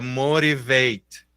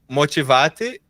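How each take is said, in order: First: The middle t sounds like a light r. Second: The middle t is a clear t sound. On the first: This is how the word is spoken. "a hora que eu falo é motivate ... Como se tivesse um Rzinho ali" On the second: This is how the word is spelled. "eu escrevo m- motivate"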